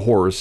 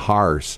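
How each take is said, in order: First: The word has a standard vowel. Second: The word has a local St. Louis vowel. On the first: "not the horse" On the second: "You're going to ride the horse"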